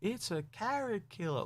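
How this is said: It is said stiffly, like a rehearsed line.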